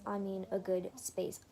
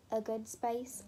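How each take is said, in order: First: Said in the usual way. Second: British accent slipping into "space"; accidental British accent. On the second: Real, not acted. Crafter emphasising good placement to viewers, in an accidental British accent. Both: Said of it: "That turned into a British accent".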